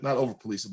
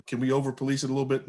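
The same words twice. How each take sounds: First: "Not" hit hard as a quick correction; stress on not. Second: Over police it, with the word "over" leaned on; stress on over. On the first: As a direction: correct yourself by punching the word "Not". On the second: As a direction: push the word "over" harder than the rest. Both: Real, not acted.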